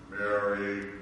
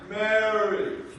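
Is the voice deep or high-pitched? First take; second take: deep; high-pitched. First: It is said in a deep, low voice. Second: It is said in a high-pitched voice. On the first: "Are some more like this?" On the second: "Or was it a hi?"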